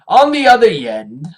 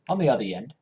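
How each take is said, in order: First: The phrase is said at a slower pace. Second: The phrase is said very quickly.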